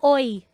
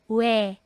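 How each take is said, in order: First: It is pronounced like 'oy'. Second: It is pronounced like 'we'. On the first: The speaker calls it wrong. "Hindi yan oy" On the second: The speaker calls it right. "ang pronunciation po niya is we"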